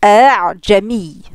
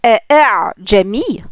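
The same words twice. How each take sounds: First: Slow "eh, Jami" with the second hamza softened into an open glide; eased second hamza. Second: Two separate, firmly closed glottal stops in "eh, eh, Jami"; two full hamzas. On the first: Teacher showing the eased form, drawn-out "eh, Jami" with softened second hamza. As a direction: run the second hamza of "eh, Jami" on without closing the throat. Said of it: "ils vont dire". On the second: Teacher showing what is not said, both hamzas distinct in "eh, eh, Jami". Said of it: "au lieu de dire". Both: Shown as a demonstration.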